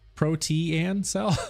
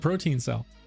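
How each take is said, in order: First: The first word sounds different from protein. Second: The first word sounds like the word protein. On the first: "Is it protean cell?" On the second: "I would call it the protein cell"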